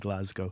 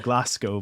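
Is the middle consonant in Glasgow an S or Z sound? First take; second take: Z; S. First: The middle consonant is a Z sound. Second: The middle consonant is an S sound.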